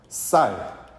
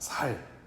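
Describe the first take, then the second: First: It starts with a tense s sound. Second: It starts with a plain s, Busan-style.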